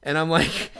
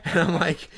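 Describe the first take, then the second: No difference in how they are said.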